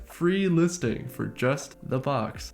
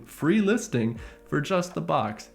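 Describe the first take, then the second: First: "free listing for just the box" slowly, weight on FREE and JUST; slow, deliberate stress on "free" and "just" in "free listing for just the box"; emphatic repeat. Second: Said in the usual way. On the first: Retold or imitated.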